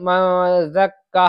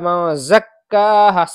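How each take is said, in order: First: The z sound is blurred and unclear. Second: The z sound is pronounced clearly. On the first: The speaker calls it wrong. "ऐसे नहीं मज़क्का है ऐसे पढ़ दिया" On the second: The speaker calls it right. "साफ निकलना चाहिए"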